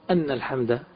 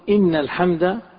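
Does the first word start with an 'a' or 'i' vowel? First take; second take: a; i. First: The first word begins with an 'a' vowel. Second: The first word begins with an 'i' vowel. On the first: It gives the reason for answering the call. The speaker calls it wrong. "ولا نقول أن الحمد بالفتح" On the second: It starts a new statement that praise belongs to God. The speaker calls it right. "نقول إن الحمد"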